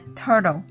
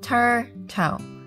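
First: The second t sounds like a soft d. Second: The second t sounds like a clear t.

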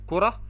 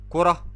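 First: The word ends in an h sound, stopped. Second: The word ends in an h sound, stopped.

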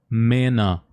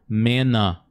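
No difference in how they are said.

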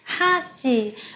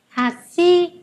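First: The stress is on the first syllable. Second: The stress is on the second syllable. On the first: It means chopsticks. "nhấn mạnh vào chữ ha" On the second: It means bridge. "cây cầu thì chúng ta sẽ nhấn vào chữ si"

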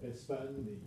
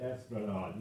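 First: The name is said as Espandi, without the l. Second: The name is said fully as Esplanade. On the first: The speaker calls it wrong. "You can't even pronounce it or spell it right" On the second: The speaker calls it right. "it's actually Esplanade"

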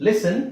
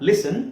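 No difference in how they are said.

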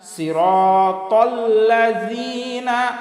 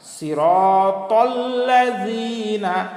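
The two takes are said the same way.

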